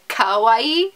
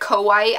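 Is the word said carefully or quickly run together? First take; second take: carefully; quickly. First: The word is said slowly with each syllable clear. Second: The word is said fast with syllables run together. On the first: The speaker calls it right. "I'm supposed to say kawaii" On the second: The speaker calls it wrong. "I just say it so fast that it just comes out as kawaii"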